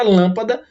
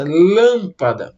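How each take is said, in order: First: Said in the usual way. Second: "Lâmpada" with a long, strong LÂM; "Lâmpada", first syllable stretched out, the rest falling away; stress on first syllable. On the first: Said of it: "quando nós estamos pronunciando a palavra lâmpada". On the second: Shown as a demonstration. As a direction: lean hard and slowly on the LÂM of "Lâmpada". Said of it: "ela aparece com mais força".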